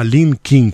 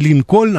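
First: The name has an English-style pronunciation. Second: The name has a Russian-style pronunciation. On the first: The speaker calls it right. "на английский такой манер" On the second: The speaker calls it wrong. "Не Линкольн"

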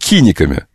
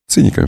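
First: The word begins with a k sound. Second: The word begins with a ts sound. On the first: This is how Petersburg says it. "будем киниками по-петербургски" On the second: This is how Moscow says it. "Циниками по-московски"

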